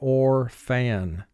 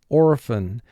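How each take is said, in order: First: The word is distorted so each syllable matches spelling. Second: The word is said in its ordinary everyday way.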